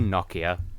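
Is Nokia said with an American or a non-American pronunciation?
non-American. The word is said with a non-American pronunciation.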